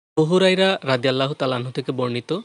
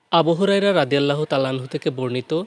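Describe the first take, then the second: Both takes have the same delivery.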